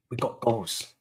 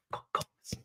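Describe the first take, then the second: First: Said in the usual way. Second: Breathy whisper of disbelief. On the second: Real, not acted. Fan to his viewers about the goals, whispered. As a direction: breathe it out like a secret. Repeats the phrase, then whispers it.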